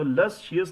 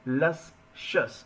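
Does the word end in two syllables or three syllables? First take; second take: three syllables; two syllables. First: The ending is split into 'shee-us' syllables. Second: The ending is one short 'shus' syllable. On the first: The speaker calls it wrong. "लस शियस नहीं बोलना है" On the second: The speaker calls it right. "ये word pronounce करने में इतना स्वादिष्ट लग रहा है"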